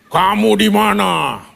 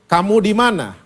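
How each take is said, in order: First: It is said in a scary, menacing way. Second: It is said gently, as if searching.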